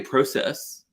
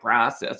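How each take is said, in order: First: The word is pronounced the British way. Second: The word is pronounced the American way. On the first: The speaker calls it right. "I say process. I just like the way that sounds better" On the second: The speaker calls it wrong. "I don't like process"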